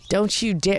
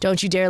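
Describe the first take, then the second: First: It is said lightly but firmly. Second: It is said with aggressive, angry force. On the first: "it was light and strong" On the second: "a really aggressive anger"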